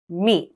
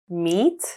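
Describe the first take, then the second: First: The pitch falls at the end. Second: The pitch rises at the end. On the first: "with rising and falling intonations" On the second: "with rising and falling intonations"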